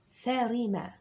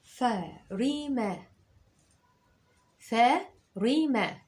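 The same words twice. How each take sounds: First: Said in the usual way. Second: "ثريمة" very slow, stretched; teacher dictating slowly; slow dictation. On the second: Shown as a demonstration. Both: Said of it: "اكتب معايا".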